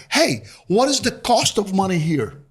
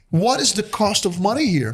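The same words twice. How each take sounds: First: Stiff, word-for-word question from Portuguese; literal translated phrasing. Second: Stiff, word-for-word newcomer question; literal translated phrasing. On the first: Newcomer asking Australians the cost of money, stiffly literal. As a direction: ask it like a newcomer translating in his head. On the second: Immigrant asking locals about loans, stiffly literal. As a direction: say it as if translated from Portuguese. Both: Retold or imitated. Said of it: "people don't talk like this".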